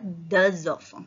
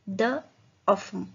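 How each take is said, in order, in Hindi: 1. z की ध्वनि दोनों शब्दों को आपस में जोड़ती है। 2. शब्द अलग-अलग हैं, कोई z ध्वनि नहीं है।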